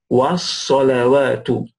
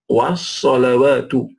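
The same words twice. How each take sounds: Both takes have the same delivery.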